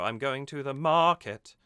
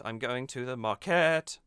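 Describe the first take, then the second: First: Sung, "market" lifted and louder on MAR; sung stress on MA. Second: Sung, "market" with KET held and lifted; sung stress on KET. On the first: Singing coach shows the right scansion, "market" leaning hard on MAR. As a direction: chant it with MAR strong in "market". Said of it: "should be on ma". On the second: Singing coach shows the strange version, "market" stressed on KET. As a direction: chant it wrongly, landing hard on the KET of "market". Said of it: "not on ket". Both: Shown as a demonstration.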